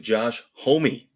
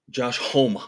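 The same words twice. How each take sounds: First: The surname sounds like the word homie. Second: The surname has a European-style pronunciation. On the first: The speaker calls it right. "Like, hey, you're my homie" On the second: The speaker calls it wrong. "a European thing on it"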